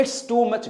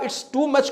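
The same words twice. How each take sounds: First: 'It's too' as two separate words; wrong, unjoined 'It's too much'; unlinked words. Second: 'It's too' run together as one; smoothly connected 'It's too much'; linked words. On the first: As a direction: keep 'It's' apart from 'too'. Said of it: "गलत है". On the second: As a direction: join the end of 'It's' into 'too'. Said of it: "जोड़ देंगे ना". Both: Shown as a demonstration.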